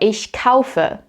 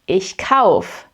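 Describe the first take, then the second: First: The verb keeps its final e sound. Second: The verb drops its final e sound.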